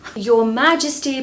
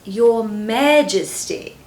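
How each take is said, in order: First: It is said in a plain, everyday accent. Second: It is said in a very posh accent.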